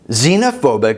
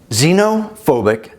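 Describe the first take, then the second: First: It is said at normal speed. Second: It is said slowly.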